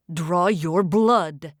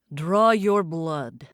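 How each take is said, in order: First: Slow, low barked command; barked order. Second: Slow, deep commanding order; loud command. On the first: Isko barks at Bay, slow and low. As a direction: bark the order at him. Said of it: "Isko barked at Bay". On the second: Demon leader commanding his followers, slow and deep. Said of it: "Isko's loud voice commanded". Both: Acted.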